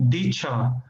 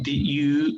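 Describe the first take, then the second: First: The two words blend into one with a ch sound. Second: The two words are said separately with a clear d. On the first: "They say dicha" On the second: "they do not usually say did you"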